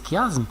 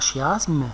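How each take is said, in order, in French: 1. Le mot commence par un son 'k'. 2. Le mot commence par un son 'sh'. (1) "il faut prononcer chiasme" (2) "pas chiasme"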